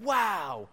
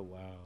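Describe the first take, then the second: First: Put-on high wow in a small child's amazement; excited wonder. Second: Low, quiet, deadened wow; unimpressed teenager. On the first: Preacher imitating his son seeing an airplane, excited. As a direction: imitate a toddler thrilled by an airplane. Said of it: "and get really excited". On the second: Retold or imitated. Preacher mimicking teenagers to the congregation, unimpressed. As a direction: imitate a teen who couldn't care less. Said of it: "Teenagers say, "Wow," but they go like".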